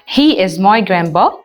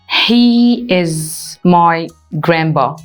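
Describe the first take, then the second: First: It is said fast. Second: It is said slowly.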